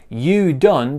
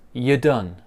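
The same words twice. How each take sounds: First: 'You' is said with its full vowel. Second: 'You' is reduced to a weak 'ya'.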